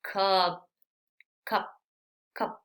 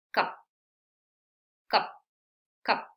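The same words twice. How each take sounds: First: "cup" said the wrong way, vowel not short and quick. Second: "cup" with a very short vowel, one quick puff of air; short clipped cup. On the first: Teacher shows students the mistaken "cup" to avoid. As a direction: say "cup" the incorrect way the teacher warns against. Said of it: "Sí, no digo". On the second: Teacher models the correct English vowel: a short quick "cup". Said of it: "con una sola salida de aire súper rápido". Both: Shown as a demonstration.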